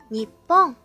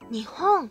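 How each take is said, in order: First: The word is said in a more emphatic way. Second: The word is said in a plainer way. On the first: It puts emphasis on the country. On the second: It names the country neutrally.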